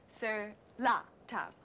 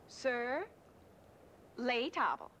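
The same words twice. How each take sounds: First: "sur la table" with la leaned on, now correct; corrected French. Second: Les tables, said wrong as "leɪ tɑbəl"; les tables said as plain English-ish "lay tahble"; wrong French. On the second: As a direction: Sur les tables with les stressed and falling, a learner's mistake. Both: Real, not acted.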